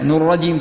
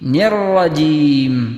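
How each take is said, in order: First: The syllable before rajim has a u vowel. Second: The syllable before rajim has an i vowel. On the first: The speaker calls it wrong. "നുർ റജീം തെറ്റാണ്" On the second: The speaker calls it right. "ഇതാണ് ശരി"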